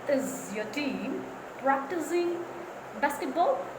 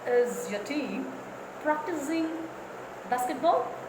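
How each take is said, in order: The two takes are said the same way.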